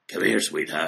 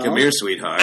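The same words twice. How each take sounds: First: The voice is rougher and much more raspy. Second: The voice is somewhat raspy, like an old woman. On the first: "Do a little bit more raspy, though" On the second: "if your grandmother sounds like this"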